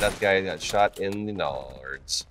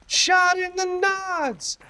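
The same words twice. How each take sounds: First: Said in the usual way. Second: High, slow, silly squeak; high slow mock voice. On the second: Shown as a demonstration. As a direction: stretch it out in a squeaky falsetto.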